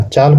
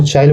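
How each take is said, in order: First: Said in the usual way. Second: चाइल with an i-glide before the l; Nagpuri pronunciation. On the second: Shown as a demonstration. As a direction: say चाइल the Nagpuri way, "chaa-il". (चाइल का नागपुरी उच्चारण, ल से पहले इ) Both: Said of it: "Hindi शब्द को नागपुरी में बदल जाता है".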